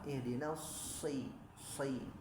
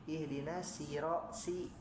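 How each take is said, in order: First: The 's' is heavy, with a thick sound. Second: The 's' is light, with a thin sound. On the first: The speaker calls it right. "harusnya dia tebal" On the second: The speaker calls it wrong. "nah itu tipis, nah, keliru"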